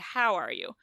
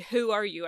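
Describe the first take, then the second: First: The vowel in 'how' sounds like a plain 'ow'. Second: The vowel in 'how' sounds close to 'ooh'. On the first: The speaker calls it right. "I'm pretty sure they say, how are you?" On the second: The speaker calls it wrong. "I'm pretty sure they don't say, who are you?"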